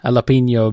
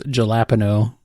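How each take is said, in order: First: It is said with Spanish-style pronunciation. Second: It is said with a heavily anglicized pronunciation.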